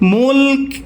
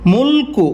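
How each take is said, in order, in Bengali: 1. শব্দটি শুধু ক-ধ্বনিতে শেষ হয়। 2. শব্দটি একটি ছোট উ-স্বরে শেষ হয়। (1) "ওয়াকফ করিলে কি হবে?" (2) "কাফ পেশ কো"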